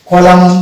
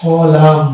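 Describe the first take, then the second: First: কলামন with the final n sounded; wrong pronunciation. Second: কলাম with a silent n; correct pronunciation. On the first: Teacher showing the mistaken reading to students. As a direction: say কলামন, n fully pronounced. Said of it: "কলামন হওয়ার কথা". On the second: Teacher modelling the correct word for students. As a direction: end cleanly on কলাম, no n. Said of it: "actual pronunciation হবে কলাম". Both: Shown as a demonstration.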